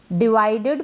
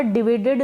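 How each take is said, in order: First: डिवाइडेड said as di-vai-ded with long vai; teacher's correct डिवाइडेड, di-vai-ded; correct pronunciation. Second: डिवाइडेड said as di-vi-ded, short i in the middle; wrong pronunciation. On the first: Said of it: "डिवाइडेड पढ़ेंगे". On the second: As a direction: demo the wrong डिवाइडेड with short vi, not vai. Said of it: "डिवाइडेड ना पढ़ें". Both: Shown as a demonstration.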